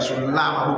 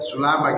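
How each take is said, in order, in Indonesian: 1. Bunyi L ditahan lama, dobel. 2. Bunyi L pendek, tunggal. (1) "jadi lamnya enggak sulama bukan" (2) "Jadi lamnya sulama gitu, enggak pakai tasjid"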